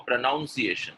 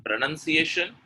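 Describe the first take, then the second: First: PRONUNCIATION with "noun" in the second syllable; wrong pronunciation. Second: PRONUNCIATION with "nun" in the second syllable; correct pronunciation. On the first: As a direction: say PRONUNCIATION as "pro-NOUN-see-ay-shun". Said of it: "pronunciation is wrong". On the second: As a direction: say PRONUNCIATION as "pro-nun-see-AY-shun". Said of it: "is the correct pronunciation". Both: Shown as a demonstration.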